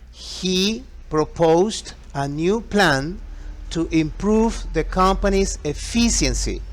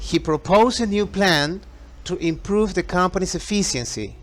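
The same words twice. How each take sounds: First: The sentence is spoken at a slower pace. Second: The sentence is spoken at a faster pace.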